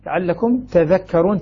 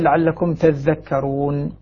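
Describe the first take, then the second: First: The dh sound is short and single. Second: The dh sound is long and doubled. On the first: "تخفيف الذال" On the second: "الباقون بتشديد الذال"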